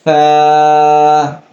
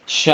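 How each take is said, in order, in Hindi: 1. यह जीभ को दांतों के बीच रखकर शुरू होता है। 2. यह फुसफुसाती 'sh' की आवाज़ से शुरू होता है। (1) "ज़बान को हल्का दांतों से दबाकर इसे अदा करेंगे" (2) "बहुत सारे लोग इसे शा या सा पढ़ते हैं"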